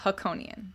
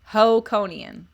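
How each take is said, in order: First: The first syllable is said as 'ha'. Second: The first syllable is said as 'ho'. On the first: The speaker calls it wrong. "Not Hakonian" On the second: The speaker calls it right.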